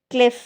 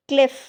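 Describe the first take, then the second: No difference in how they are said.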